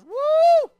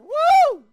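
First: The shout is quieter. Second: The shout is louder.

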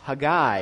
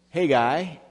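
First: The stress is on the last syllable. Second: The stress is on the first syllable. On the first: This is the Hebrew way of saying it. "with the Hebrew way of putting the accent on the end syllable" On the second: This is the usual American way of saying it. "if you're an American"

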